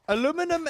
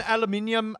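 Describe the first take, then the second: First: "Aluminum" as uh-LOO-mi-num; American pronunciation. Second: "aluminium" as al-uh-MIN-ee-um; British pronunciation. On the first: Streamer comparing two names, uh-LOO-mi-num for "Aluminum". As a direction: stress LOO in "Aluminum", four syllables. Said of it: "Aluminum just sounds stupid". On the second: Streamer comparing two names, al-uh-MIN-ee-um for "aluminium". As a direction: stress MIN in "aluminium", five syllables. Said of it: "I find it as aluminium". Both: Shown as a demonstration.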